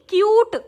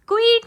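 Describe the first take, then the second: First: The word is pronounced like kyoot. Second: The word is pronounced like kweet. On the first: The speaker calls it right. "क्वीट नहीं क्यूट" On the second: The speaker calls it wrong. "क्वीट नहीं क्यूट"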